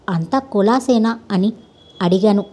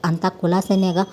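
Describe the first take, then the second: First: Slower, pressing repeat of the question; insisting, repeating. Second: Said in the usual way. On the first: A narrator's reading. Vinayakarao to the cart driver, repeating his question insistently. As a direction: ask it again, slowly and firmly, waiting for an answer. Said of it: "రెట్టించి అడిగాడు Vinayaka Rao". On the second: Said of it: "అడిగాడు ఓరగా చూస్తూ".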